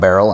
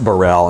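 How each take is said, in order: First: The name is said as it is spelled. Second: The name is said like 'Burrell'. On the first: The speaker calls it wrong. "I used to call him Tom Baril" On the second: The speaker calls it right. "it's pronounced Burrell"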